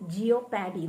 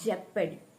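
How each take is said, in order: First: The word begins with a 'jee-oh' sound. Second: The word begins with a short 'jep' sound. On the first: The speaker calls it wrong. "സാധാരണ എല്ലാവരും pronounce ചെയ്യുന്നത് ജിയോപാഡി എന്നാണ്... തെറ്റാണ്" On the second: The speaker calls it right. "ഇത് ജിയോപാഡി അല്ല, തെറ്റാണ്, ജെപ്പഡി"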